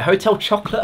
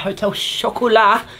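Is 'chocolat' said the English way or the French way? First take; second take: English; French. First: Chocolat is said like the English word chocolate. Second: Chocolat is said the French way, without final t. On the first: The speaker calls it wrong. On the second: The speaker calls it right.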